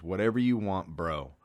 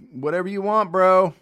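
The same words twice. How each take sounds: First: Said in the usual way. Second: Loud, high eager bro shout; bro-ish call. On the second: Retold or imitated. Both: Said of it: "I think those are the exact words".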